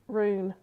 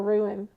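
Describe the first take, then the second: First: The word is said as rune. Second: The word is said as ruin. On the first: The speaker calls it right. "cannot say rune" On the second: The speaker calls it wrong. "He calls it a ruin"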